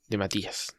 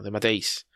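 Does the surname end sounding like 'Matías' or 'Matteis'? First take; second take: Matías; Matteis. First: The surname is said like 'Matías'. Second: The surname is said like 'Matteis'. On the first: The speaker calls it wrong. "Me niego a decirle de Matías, es imposible, en ningún idioma se pronuncia así" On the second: The speaker calls it right. "no, de Matteis"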